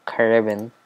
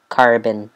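First: Said in the usual way. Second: Says Carbon with a rolled American R; American accent. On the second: Shown as a demonstration. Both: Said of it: "Saying it in an American accent".

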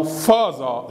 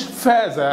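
First: فازة said "faaza" with a dark back a; wrong heavy variant. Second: فازة said "faaza" with f and a light front a; wrong Arabized pronunciation. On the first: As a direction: say فازة broad and heavy, "fahza". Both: Shown as a demonstration. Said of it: "ما اسمهاش فازة أو فازة".

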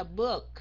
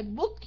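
First: "book" with a lightly gliding vowel. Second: "book" said heavy and cut short; wrong heavy tone. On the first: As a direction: let "book" run through lightly, not heavy. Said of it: "Mình đọc chạy thôi". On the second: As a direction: show the mistake: a heavy, stopped "book". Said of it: "đừng có đọc nặng là book". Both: Shown as a demonstration.

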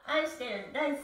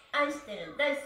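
No difference in how they are said.

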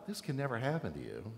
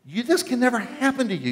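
First: Soft and low, just saying the words; the way it was not said, gently and lower; mild protest. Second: Much higher pitched yell, stress on "This". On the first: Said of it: "it's pretty clear this is not a". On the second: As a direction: Peter screaming at Jesus in protest. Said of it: "This is yelling and screaming". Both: Shown as a demonstration.

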